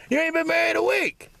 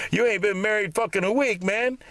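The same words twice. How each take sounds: First: Much higher, shrieking mock disbelief; mocking squeal. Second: Higher, mock-incredulous taunt; mocking friend. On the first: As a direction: squeal the taunt way up high. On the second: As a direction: needle him about the short marriage. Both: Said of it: "people started asking me".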